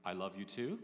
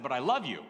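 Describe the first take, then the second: First: A softer, lower, hesitant reply, rising like a question; unsure. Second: A mildly irritated declaration of love, said a bit louder; a snappish I love you, half cross; annoyed. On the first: Wife answering her husband's I love you, doubtful. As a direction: sound unsure of your own I love you. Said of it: "Like, like she wasn't sure". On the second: Husband mad at his wife while camping, mild irritation. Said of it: "I was mad at her about something". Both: Retold or imitated.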